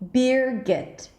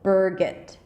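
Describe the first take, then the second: First: The first vowel sounds like the vowel in 'beer'. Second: The first vowel sounds like the vowel in 'stir'. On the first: "ear as in deer, beer, beer, okay?" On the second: "just use the er as in stir at the beginning"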